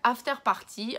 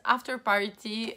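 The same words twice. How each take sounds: First: It is pronounced with a French accent. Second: It is pronounced with an English accent. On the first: "en prononciation à la française" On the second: "prononciation à l'anglaise"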